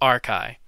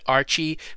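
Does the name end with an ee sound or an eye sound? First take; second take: eye sound; ee sound. First: The name ends with an eye sound. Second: The name ends with an ee sound. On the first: The speaker calls it right. "it really is pronounced Arkai" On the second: The speaker calls it wrong. "mispronounced his name and, and said it Archie"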